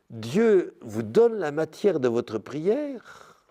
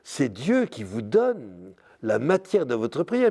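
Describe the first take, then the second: First: "Dieu vous donne la matière de votre prière" said slowly, each word weighed; slow down and lean on "donne"; deliberate, insistent restatement; slow emphasis. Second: Said in the usual way. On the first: Real, not acted.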